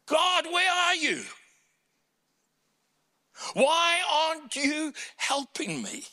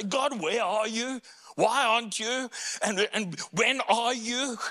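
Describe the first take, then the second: First: Much higher, louder pleading cry; high anguished plea, louder. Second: Higher pleading questions; higher plea to God; pleading cry. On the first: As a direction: cry out to God in despair. Voicing the heart's cry. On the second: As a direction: ask God why, pleading. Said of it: "for David to say". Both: Retold or imitated.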